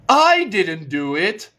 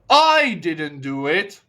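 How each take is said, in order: No difference in how they are said.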